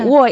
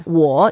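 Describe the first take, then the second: First: The pitch falls straight down. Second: The pitch dips down and then rises. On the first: It is the first part of the word for bedroom. "is the fourth tone and you go down" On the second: It means I. "you go down and up"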